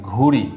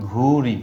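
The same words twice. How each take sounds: The two takes are said the same way.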